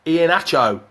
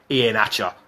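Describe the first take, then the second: First: "Hatcho" with a clear final OH; correct name pronunciation. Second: "Hatcher" with final UH, pitched lower; mispronounced name. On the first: Presenter showing Frank the name, "Hatcho" ending in OH. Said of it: "tell Frank how to pronounce". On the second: Presenter contrasts Frank's version, "Hatcher" ending in a low UH. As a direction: drop lower and end "Hatcher" on -uh. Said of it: "It's not Ian Hatcher". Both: Shown as a demonstration.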